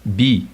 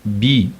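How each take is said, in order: First: The syllable is said on a mid pitch. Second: The syllable is said on a mid pitch.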